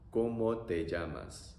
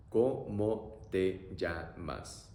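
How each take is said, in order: First: Said in the usual way. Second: Very slow ¿Cómo te llamas? each syllable stretched; teacher modelling slowly; slow demo. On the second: Shown as a demonstration. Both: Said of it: "So, pronunciation".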